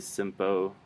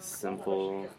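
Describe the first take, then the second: First: The word ends with an O-like vowel sound. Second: The word ends with a dark L sound. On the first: The speaker calls it wrong. "You wouldn't say simpo" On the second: The speaker calls it right. "like simple"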